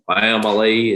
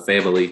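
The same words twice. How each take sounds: First: It is said with a Southern twang. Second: It is said in a neutral, non-Southern accent. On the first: How the coach suddenly speaks now. "suddenly developed a Southern uh, twang in his voice" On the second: How the coach spoke before. "the way he said family two days ago at Notre Dame"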